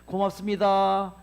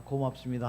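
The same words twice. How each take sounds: First: Loud, slow, clearly spoken thank-you; bright thanks. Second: Low, soft thank-you. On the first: Lecturer saying thanks to water before freezing, loud and slow. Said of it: "이렇게". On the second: Lecturer showing kind words to the water, low and soft. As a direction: murmur the thanks gently. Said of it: "아까처럼 이렇게". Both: Shown as a demonstration.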